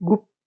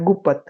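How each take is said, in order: First: The p and t sounds are joined together. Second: A vowel separates the p and t sounds. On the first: The speaker calls it right. "આપણે પ ને ત સાથે pronounce કરીએ છીએ" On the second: The speaker calls it wrong. "આપણે એમ નથી કહેતા ગુપત"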